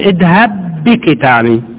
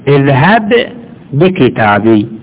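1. تندمج الباءان في باء واحدة. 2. يُنطق الباءان منفصلين. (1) "يجوز لك تضغمهم تقول اذهب بكتابي، باءين خليتهم باء واحدة" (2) "ويجوز التفكيك فك الادغام تقول اذهب بكتابي"

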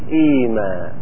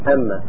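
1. تبدأ بـ i طويلة وفيها m واحدة. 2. تبدأ بـ a وفيها m مشددة. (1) "وقد تبدل ميمها الأولى ياء فنقول إيما" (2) "قد تفتح همزتها، فماذا نقول؟"

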